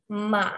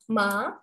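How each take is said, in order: First: The pitch dips down, then rises again. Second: The pitch rises like a question. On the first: "nadanya berbentuk V, jadi dia ke bawah turun kemudian naik lagi" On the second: "jadi naik seperti orang bertanya"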